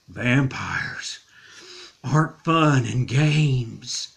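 It is said in a spooky, eerie voice.

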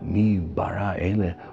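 It is said with awe and wonder. It marvels at who made all this. "we're in a wonderment"

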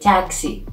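The word is said with an English pronunciation. "In English you say taxi"

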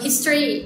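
It is said with a native English pronunciation. "จริงจริงคือมันอ่านภาษาอังกฤษว่า"

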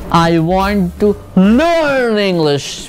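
The word learn is stressed. The person wants to learn, specifically. "अब learn पे जब मैंने स्ट्रेस डाला"

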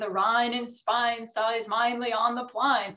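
The 'ai' vowels are said in a Cockney-like way. This is her own pronunciation before she learns. The speaker calls it wrong. "she keeps saying"

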